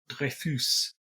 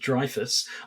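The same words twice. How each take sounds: First: The name is pronounced with French sounds. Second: The name is pronounced with English sounds. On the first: "I told you we're not doing any proper French pronunciations" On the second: "pronouncing something as though it were English is the greatest mangling"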